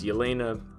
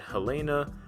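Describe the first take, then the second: First: The name begins with a Y sound. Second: The name begins with an H sound. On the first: The speaker calls it right. "but it's Yelena" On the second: The speaker calls it wrong. "sometimes they mispronounce it Helena"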